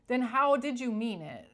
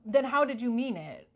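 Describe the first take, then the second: First: Amused and incredulous, laughing it out; laughing retort. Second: Loud, challenging retort; sharp retort. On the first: Mocking the fake apologizer, laughing retort. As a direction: repeat the challenge through a laugh. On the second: To a fake apologizer, a loud challenging retort. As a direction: demand an answer, pushing back hard. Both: Pretend.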